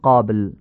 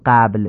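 First: The first vowel is a short, back, open a. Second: The first vowel is a front, Persian-style a. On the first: The speaker calls it right. "میگیم قابل" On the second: The speaker calls it wrong. "قا نمیگیم قبل"

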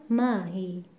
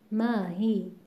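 No difference in how they are said.

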